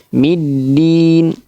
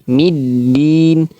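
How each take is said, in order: The two takes are said the same way.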